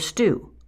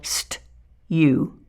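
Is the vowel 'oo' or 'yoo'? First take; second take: oo; yoo. First: The vowel is a plain 'oo' without a glide. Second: The vowel is said with a y-glide, 'yoo'. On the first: The speaker calls it right. "the U sound for brew or stew" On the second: The speaker calls it wrong. "they try to force out that U sound"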